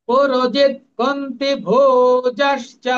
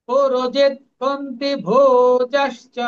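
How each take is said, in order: No difference in how they are said.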